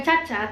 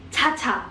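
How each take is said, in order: First: "Caca" as an everyday Indonesian name, no breath; plain Indonesian Caca. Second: "Caca" with a strong puff of air on each ch; aspirated Caca. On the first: Teacher contrasting a friend's name, plain unaspirated "Caca". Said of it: "Itu bukan Caca". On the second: Teacher showing the Korean version, aspirated "Caca". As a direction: breathe out hard on the ch of "Caca". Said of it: "Ada huruf H dan ada udaranya". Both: Shown as a demonstration.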